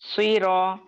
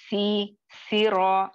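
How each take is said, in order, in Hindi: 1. s की आवाज़ भारी और भरी हुई है। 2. s की आवाज़ हल्की और पतली है। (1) "मोटे हर्फ" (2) "यहाँ पे मैं सी सी रॉ नहीं बोल रही हूँ"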